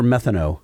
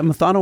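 First: Second "methano" said as METH-uh-no; first-syllable stress. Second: First "methano" said as muh-THAH-no; second-syllable stress. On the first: Offering co-host the other reading, "methano" as METH-uh-no. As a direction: put the weight on METH in "methano". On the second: Offering co-host two readings, "methano" as muh-THAH-no. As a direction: put the weight on THAH in "methano". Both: Shown as a demonstration. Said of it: "What do you think it is?".

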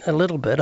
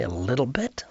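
First: Said in the usual way. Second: Softer, rising disbelieving echo; incredulous echo. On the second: Retold or imitated. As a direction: hand their words back as a question, quietly. He echoes their answer in disbelief.

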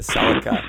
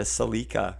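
First: Celica said as SELL-ica; guest's SELL-ica. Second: Celica said as suh-LEE-ka; Canadian suh-LEE-ka. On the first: Retold or imitated. Reminding his guest what they called it, Celica as SELL-ica. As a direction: stress the first syllable of Celica, SELL-ica. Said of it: "you called it a Celica". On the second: Shown as a demonstration. Telling his guest what we call it, Celica as suh-LEE-ka. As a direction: stress the long middle ee in Celica, suh-LEE-ka. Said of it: "we call it a Celica".

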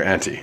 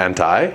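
First: "anti" said as AN-tee; an-tee pronunciation. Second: "Anti" said as AN-tie; an-tie pronunciation. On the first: Offering the other option, "anti" as an-tee. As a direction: end "anti" on an ee sound. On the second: Asking which way to say it, "Anti" as an-tie. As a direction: end "Anti" on a long eye sound. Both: Shown as a demonstration. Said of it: "Anti or anti?".

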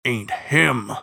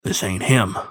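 First: Sepulchral hound, a touch of howl on HIM; restrained howl in a grave voice; furious howl creeping in. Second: Sepulchral bloodhound voice; grave hound stating it with finality. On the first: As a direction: let fury creep into "ain't him". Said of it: "furious howl creeping into his sepulchral voice". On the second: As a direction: say it as a solemn, tomb-voiced hound. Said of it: "into his sepulchral voice". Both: A narrator's reading.

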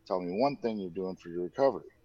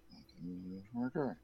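First: Said in the usual way. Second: Quick, much softer echo while scribbling; hurried note-taking murmur; fast muttered repeat. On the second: Retold or imitated. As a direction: rattle it off under your breath. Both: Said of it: "he's like".

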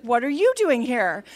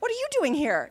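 First: YOU punched louder, throwing the question back; stress on YOU. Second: High-pitched astonished question; startled surprise. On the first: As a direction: lean hard and loud on "you". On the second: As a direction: blurt it out, pitched up, at an unexpected face. Startled wife meets her husband. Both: Retold or imitated.

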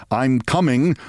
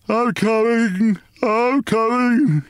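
First: Said in the usual way. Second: High, drawn-out groggy wail; slow sleepy wail. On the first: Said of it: "detected in his "I'm coming". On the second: A narrator's reading. Father waking to battering on the door, sleepy wail. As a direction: wail it slowly, half asleep. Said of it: "he wailed in a slow, sleepy voice".

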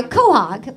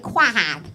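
First: Said in the usual way. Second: Quahog said as it is spelled, "kwah-hog"; spelling pronunciation. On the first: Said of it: "It's called a quahog". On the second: Shown as a demonstration. Host showing how the clam's name looks, spelling pronunciation. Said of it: "but it looks like quahog".

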